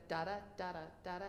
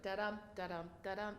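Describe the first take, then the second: First: Da-da with equal weight; even notes. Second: Da-dum with the dum punched; mock the wrong accent; accent on the second note. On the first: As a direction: keep both syllables of "da-da" level. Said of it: "instead of". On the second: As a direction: lean on the second syllable of "da-dum". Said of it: "people accent the second note". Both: Shown as a demonstration.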